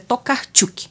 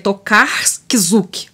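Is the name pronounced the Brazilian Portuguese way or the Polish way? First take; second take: Polish; Brazilian Portuguese. First: The name is read with Polish sounds. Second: The name is read with Brazilian Portuguese sounds. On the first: The speaker calls it right. "mas é Tokarczuk" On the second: The speaker calls it wrong. "se fosse ler na, num português, num abrasileirado, ficaria Tokarczuk"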